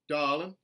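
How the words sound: The R sound is dropped. "a general Southern dropped R"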